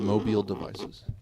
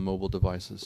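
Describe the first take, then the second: First: 'Mobile' is pronounced like the city name. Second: 'Mobile' is pronounced as the ordinary device word. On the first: It refers to the city of Mobile. The speaker calls it wrong. "not mobile devices" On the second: It means portable electronic devices. The speaker calls it right. "Art done on mobile devices"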